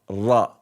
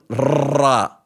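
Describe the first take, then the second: First: The r is rolled briefly and lightly. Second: The r is rolled long and heavily. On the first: The speaker calls it right. "but ra ra ra ra" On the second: The speaker calls it wrong. "don't roll it too much, especially if you Spanish... Don't ra like Ramon"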